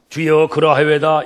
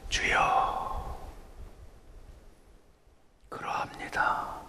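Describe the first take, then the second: First: It is read plainly without feeling. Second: It is said humbly with shame.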